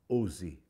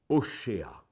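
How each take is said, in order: First: The middle consonant is a plain s sound. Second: The middle consonant is an sh sound. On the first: This is the French form of the name. "prononcé en langue française" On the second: This is the original Hebrew form of the name. "En hébreu, ça se dit Oshéa"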